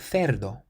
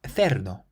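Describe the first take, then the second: Both takes have the same delivery.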